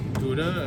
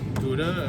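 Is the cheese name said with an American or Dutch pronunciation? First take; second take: American; American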